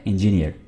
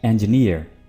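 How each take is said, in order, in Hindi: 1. अंत में स्पष्ट 'near' ध्वनि नहीं है। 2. इसे 'enj' के बाद 'near' की तरह बोला जाता है। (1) "जो कि गलत प्रोनाउंसिएशन है" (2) "यानी कुछ यूं, एंज और फिर नियर"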